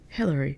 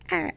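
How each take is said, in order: First: The word begins with a clear H sound. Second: The word begins with a vowel, short and chaotic. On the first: "very like posh and very like organized" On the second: "don't say the H, just kind of be like eh"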